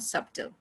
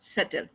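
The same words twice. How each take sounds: First: The b sound is pronounced. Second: The b sound is silent. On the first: The speaker calls it wrong. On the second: The speaker calls it right.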